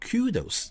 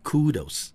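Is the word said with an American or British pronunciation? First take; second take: British; American. First: It is said with a British pronunciation. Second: It is said with an American pronunciation. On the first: "英式英语呢我们念成kudos" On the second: "美式英语呢我们读成kudos"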